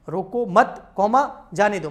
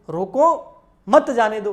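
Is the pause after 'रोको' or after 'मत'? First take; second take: after मत; after रोको. First: The pause comes after 'मत'. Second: The pause comes after 'रोको'.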